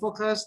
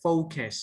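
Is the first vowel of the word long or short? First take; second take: short; long. First: The first vowel is short and clipped. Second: The first vowel is long and extended. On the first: The speaker calls it wrong. "that's terrible" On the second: The speaker calls it right. "you need to extend the the O"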